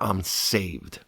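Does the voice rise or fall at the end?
fall. The voice falls at the end, like an exclamation. The speaker is certain of being saved. The speaker calls it right. "with an exclamation point"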